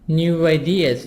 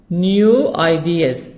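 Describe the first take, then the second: First: The words are linked with a w sound. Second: The two words are said separately without linking. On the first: The speaker calls it right. "Wa sound. Make a link between the W and I" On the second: The speaker calls it wrong. "Don't say new ideas"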